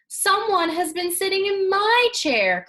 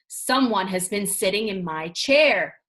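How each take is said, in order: First: It is said in a wee small voice. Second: It is said in a great big deep voice.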